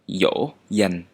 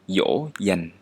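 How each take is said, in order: First: The first sound is like an English y. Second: The same.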